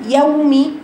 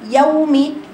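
Both takes have the same delivery.

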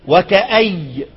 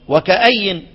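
First: The word ends on a y sound. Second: The word ends on an n sound. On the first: This stop follows the word's original form. "ابو عمرو ... يقف على الياء" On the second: This is the stop most reciters use, following the written form. "بنقف على ايه؟ على النون"

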